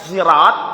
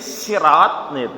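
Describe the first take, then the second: First: The word begins with a buzzing z sound. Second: The word begins with a plain, light s. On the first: "atau dengan zai" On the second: "atau dengan sin"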